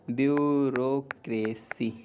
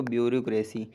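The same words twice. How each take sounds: First: "bureaucracy" drawn out very slowly; slow careful demo. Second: Said in the usual way. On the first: Shown as a demonstration. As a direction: say "bureaucracy" slowly so they catch it. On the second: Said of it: "सबसे tough spelling".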